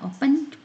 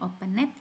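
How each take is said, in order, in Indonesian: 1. Akhirannya bunyi konsonan biasa. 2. Akhirannya menambah suku kata tambahan 'id'. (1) "Cara bacanya opened" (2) "bukan opened"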